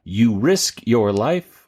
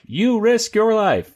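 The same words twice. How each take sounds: First: Said in the usual way. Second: Much higher, slow dramatic announcement; high, stretched-out exclamation of the title; dramatic title read. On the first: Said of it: "no, it's more like". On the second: Shown as a demonstration. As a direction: pitch it way up and draw it out. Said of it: "it's more like".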